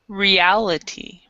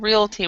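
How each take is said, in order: First: The word is said with four full syllables. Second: The word is squeezed into two syllables. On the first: The speaker calls it right. "we would say reality" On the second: The speaker calls it wrong. "instead of realty"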